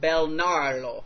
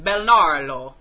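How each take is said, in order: First: The name is said in a plain accent. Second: The name is said in an Italian accent.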